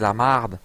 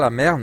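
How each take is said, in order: First: The vowel is an open 'ah', Québécois style. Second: The vowel is an open 'eh', standard French style. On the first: "mais c'est la marde" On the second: "c'est pas la merde"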